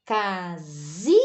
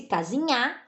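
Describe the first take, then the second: First: "Casinha" broken up slowly, with a long rising zi before nha; stress on middle syllable. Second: "casinha" said as if it ended in a stressed nha; wrong stress on final syllable. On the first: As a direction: stretch and lift the zi in "Casinha", then drop nha. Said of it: "Mas olha como é a pronúncia". ("Casinha" bem devagar, com a sílaba zi tônica e alongada) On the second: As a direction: shift the stress in "casinha" to the very last a. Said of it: "seria uma oxítona". ("casinha" pronunciada como oxítona, forte no nha) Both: Shown as a demonstration.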